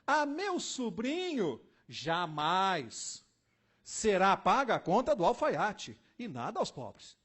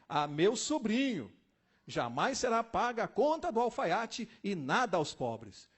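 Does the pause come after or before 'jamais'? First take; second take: after; before. First: The pause comes after 'jamais'. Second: The pause comes before 'jamais'.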